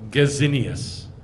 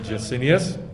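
First: The name is said in a German way. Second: The name is said in an English way. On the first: This follows the name's German origin. "Nehemiah Gordon calls him Gazinius ... Gazinius is how he pronounces it, because he was German" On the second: This is the speaker's habitual way of saying it. "I say Jacinius"

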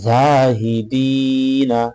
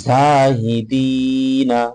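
The two takes are said the same way.

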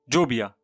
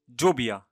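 First: The word begins with a j sound. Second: The same.

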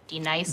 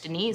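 First: The name is said as two parts, D-Nice. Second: The name is said the usual way, Denise. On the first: The speaker calls it right. "That's better" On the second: The speaker calls it wrong.

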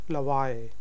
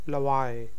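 Both takes have the same delivery.

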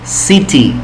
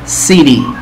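First: It is said in a British accent. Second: It is said in an American accent. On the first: "Ahora con inglés británico" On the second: "Primero vamos con acento americano"

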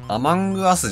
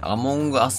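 First: The second syllable uses an 'a' vowel. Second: The second syllable uses an 'o' vowel. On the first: The speaker calls it wrong. "アマングアスじゃなくて" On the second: The speaker calls it right. "アモングアスが一応正しい公式見解"

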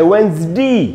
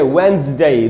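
First: The word ends with a "dee" sound. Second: The word ends with a "day" sound. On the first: "दूसरा है वेंसडी" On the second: "एक है वेंसडे"

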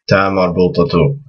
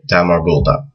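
First: The word ends with a t and u sound. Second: The word ends with a soft h sound. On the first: The speaker continues into a following word. "if you're saying another word after it ... just connect it so it has the flow" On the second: The speaker stops after this word. "if you just stop at the end of the word ... you won't pronounce this this mark"

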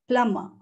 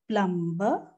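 First: The B in the middle is silent. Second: The B in the middle is sounded. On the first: The speaker calls it right. "The correct pronunciation is Plumber. B is silent" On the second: The speaker calls it wrong. "No, not at all"

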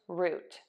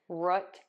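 First: The vowel is a long puckered ooh sound. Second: The vowel is a short sound as in foot. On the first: "We are going to add that ooh vowel, that puckered vowel" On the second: "like as in foot"

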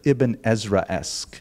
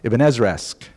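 First: The word is said at a careful, normal pace. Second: The word is said at a quick, rushed pace. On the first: "That's a great word" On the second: "I just have to say it faster so it sounds like I didn't plan and make it up"

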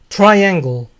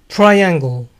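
Both takes have the same delivery.

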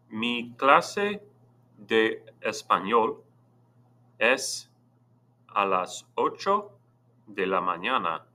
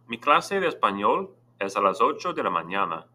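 First: It is read slowly. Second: It is read at normal speed.

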